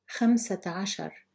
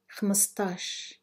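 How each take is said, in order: First: It is said in the full, long form. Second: It is said in a short, contracted form. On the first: This is the formal standard form. "I will read each number in Fusha Arabic" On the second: This is the everyday dialect form. "then say it in Algerian Arabic"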